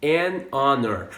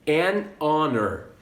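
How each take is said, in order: First: "An honor" repeated with a silent h; "An honor", vowel start; repeat model. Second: "An honor" said slowly with a silent h; "honor" begins straight on the vowel, linked to "An"; "An honor", the h not pronounced; model pronunciation. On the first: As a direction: say "An honor" again, with no h sound. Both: Shown as a demonstration. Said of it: "olha só essas palavras aqui".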